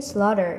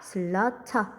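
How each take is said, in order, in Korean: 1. 이 단어는 더 부드럽고 유연하게 발음됩니다. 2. 이 단어는 또박또박 신중하게 발음됩니다.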